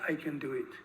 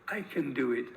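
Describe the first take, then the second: First: The vowel in 'can' is short and squeezed. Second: The same.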